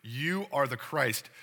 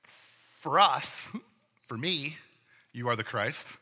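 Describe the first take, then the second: First: Slow, steady and certain, "You" leaned on; firm statement of fact. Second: Hedged opinion. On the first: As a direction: state it as settled fact, no hedging. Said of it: "a firm statement of fact". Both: Retold or imitated.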